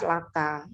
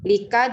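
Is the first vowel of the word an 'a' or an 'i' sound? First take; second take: a; i. First: The first vowel is an 'a' sound. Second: The first vowel is an 'i' sound. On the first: The speaker calls it right. "laka ya" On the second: The speaker calls it wrong. "Lika juga nggak pas"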